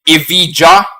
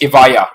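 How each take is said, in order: First: The letter j is said as a j sound. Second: The letter j is said as a y sound. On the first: The speaker calls it wrong. "not Evija. That sounds Chinese" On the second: The speaker calls it right. "it's Evija ... the letter J can be a letter Y"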